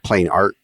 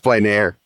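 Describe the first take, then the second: First: The second word ends with a t sound. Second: The second word ends in a vowel sound. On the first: The speaker calls it wrong. "You said plain art" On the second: The speaker calls it right. "it's plain air"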